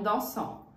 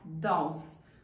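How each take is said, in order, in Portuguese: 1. A terminação final é pronunciada em voz alta. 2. A terminação final é muda. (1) "não dansam" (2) "o ent fica mudo"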